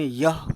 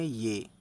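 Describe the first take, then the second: First: The word ends in an 'ah' vowel. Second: The word ends in an 'e' vowel. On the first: This is the Hindi reading. "Hindi में यह पढ़ते हैं" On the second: This is the Urdu reading. "Urdu में ये"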